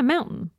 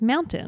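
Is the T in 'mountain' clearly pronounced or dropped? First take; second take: dropped; clear. First: The T in the middle is dropped. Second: The T in the middle is clearly pronounced. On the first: "I say the word mountain weird" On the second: "it has a T in it. They're like, it's mountain"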